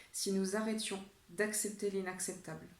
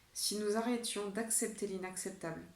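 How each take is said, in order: Both takes have the same delivery.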